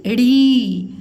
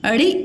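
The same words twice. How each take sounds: First: अड़ी held as a flapped "reee"; long vowel. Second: अड़ी said as a quick flapped "ri"; short vowel. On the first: Teacher shows the big matra, long ee in अड़ी. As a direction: stretch the ee in अड़ी. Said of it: "बड़ी ई की मात्रा". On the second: Teacher shows the small matra, short i in अड़ी. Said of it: "छोटी ई की मात्रा". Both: Shown as a demonstration.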